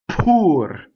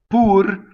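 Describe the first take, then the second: First: The P is an English-style P. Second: The P is an Italian-style P. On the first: "if I do an English one, they're even more not engaged" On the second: "my vocal cords are not engaged on the P"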